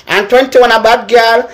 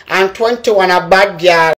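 First: Said in the usual way. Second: Slow and lower, falling at the end; slower, lower repeat. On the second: Shown as a demonstration. Repeating the number list to the viewers, slow and lower. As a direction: drag it out slowly and drop the pitch. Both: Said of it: "And twenty-one a Orange Stella".

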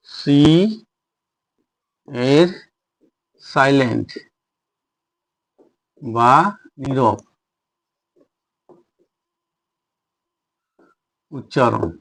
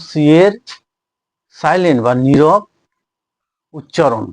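First: Long pauses between words, voice dropping; measured dictation, one word at a time. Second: Said in the usual way. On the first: Shown as a demonstration. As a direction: dictate it slowly as you write. Dictates the heading while writing.

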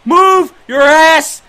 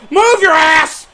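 First: Slow, high, very loud yell; drawn-out shout. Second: High, loud yell; urgent shout. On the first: Gamer urging his runner on, slow drawn-out shout. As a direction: stretch each word as you holler. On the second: Gamer yelling at his runner, urgent shout. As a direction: holler at the runner to hurry. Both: Real, not acted.

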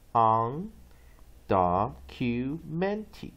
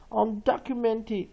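First: "undocumented" drawn out very slowly, stressed beats separated; syllable by syllable. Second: Said in the usual way. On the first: Shown as a demonstration. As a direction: break "undocumented" into slow syllables, UN, DOC, MENT standing out. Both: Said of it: "几个重音".

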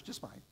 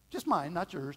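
First: Mine said much softer and lower, almost to himself; soft repeat. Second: Mine stretched and pushed louder; stress on mine. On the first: Preacher repeating mine softly to the congregation, hushed. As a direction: drop it to a quiet aside. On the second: Preacher stressing that the problem is his own, pressing on mine. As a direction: lean hard on the word mine. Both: Shown as a demonstration.

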